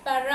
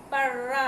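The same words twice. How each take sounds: First: Said in the usual way. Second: పర్ర with a long, rolled double r; doubled r. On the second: Shown as a demonstration. Teacher adds ra-vattu for pupils, long rr in పర్ర. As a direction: draw out the trilled r in పర్ర. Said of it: "రావత్తు".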